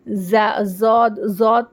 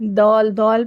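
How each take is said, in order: First: The first sound is like a z. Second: The first sound is like a d. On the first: "ज़बान की नोक सामने दांतों को लगा के ज़ौद ज़ौद पढ़ रहे हैं तो भी गलत है" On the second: "दाल की आवाज़ निकाल के दौल दौल पढ़ रहे हैं तो भी गलत है"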